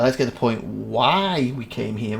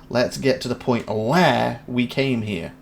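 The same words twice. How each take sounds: First: "why" held long as the fix; stress on why. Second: Slow line with "where" drawn out; stress on where. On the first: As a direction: lean hard on "why". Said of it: "makes sense to me". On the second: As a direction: stretch "where" to show the wrong word. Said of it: "if he's going for where". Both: Shown as a demonstration.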